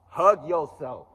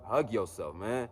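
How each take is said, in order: First: HUG stretched out, higher and much louder; drawn-out emphatic "Hug yourself"; loud, slow, high urging. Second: Said in the usual way. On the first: Shown as a demonstration. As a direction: belt out "Hug yourself" slowly, pitched up. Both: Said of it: "Tell yourself you love you".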